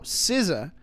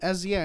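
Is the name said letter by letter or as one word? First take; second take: one word; letter by letter. First: The name is said as one word. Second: The name is spelled out letter by letter. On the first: The speaker calls it right. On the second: The speaker calls it wrong. "she would say [name] as an acronym"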